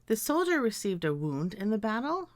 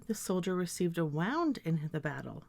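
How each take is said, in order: First: "wound" with oo, sentence rising; wound as WOOND. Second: "wound" with ow, sentence falling; wound as WOWND. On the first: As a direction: say "wound" to rhyme with "crooned". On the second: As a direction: say "wound" to rhyme with "found". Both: Shown as a demonstration. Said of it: "I could pronounce these words as".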